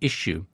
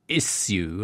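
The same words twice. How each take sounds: First: The word is said the American way. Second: The word is said the British way. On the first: The speaker calls it right. "I have to say issue" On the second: The speaker calls it wrong. "my American colleagues constantly berating me for saying issue"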